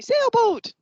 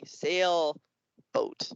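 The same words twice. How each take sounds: First: High, loud chorus-like cheer; kids shouting answer. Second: Drawn-out word with a gap between halves; slow-talking turtle. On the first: Kids guessing the turtle's word, excited high shout. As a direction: call out "Sailboat" high and quick. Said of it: "They'll say". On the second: Turtle puppet giving a compound word to kids, slowly split. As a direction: say "Sailboat" as two slow, separate parts. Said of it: "the turtle will say". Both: Acted.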